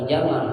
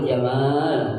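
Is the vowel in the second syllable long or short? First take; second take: short; long. First: The second vowel is kept short. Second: The second vowel is drawn out long. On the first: It means camel. The speaker calls it wrong. "bukan jamal. Kalau jamal onte" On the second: It means beauty. The speaker calls it right. "si panjangin"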